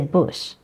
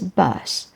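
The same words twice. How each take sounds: First: It is said with a northern English vowel. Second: It is said with the standard English vowel. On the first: "some parts of England, especially if you go further north of London, some people say bus" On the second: "the standard pronunciation is bus"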